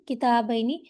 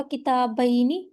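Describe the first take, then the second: First: Said in the usual way. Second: کتابینی said very slowly, each syllable stretched; slow drawn-out model word. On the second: Shown as a demonstration. Teacher stretching کتابینی for students learning the dual. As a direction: spell out کتابینی slowly for the class. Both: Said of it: "جر میں یہ کیا ہوگا؟".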